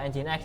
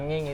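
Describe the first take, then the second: First: The name is not said as 'nging'. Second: The name is said as 'nging'. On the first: The speaker calls it right. "kalau ngomong Nginx ya" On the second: The speaker calls it wrong. "Jangan nging gitu ya"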